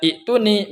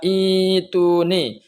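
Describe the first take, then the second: First: A glottal stop comes right before the t. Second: A long 'ee' glide comes before the t. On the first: The speaker calls it wrong. "tidak lagi dibaca iktuni" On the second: The speaker calls it right. "Melainkan diganti ya. Ini dibaca ituni"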